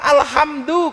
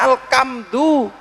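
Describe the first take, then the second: First: The middle consonant is an h sound. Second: The middle consonant is a k sound. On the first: The speaker calls it right. "Orang Jawa suruh bilang alhamdu" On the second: The speaker calls it wrong. "keluarnya alkamdu"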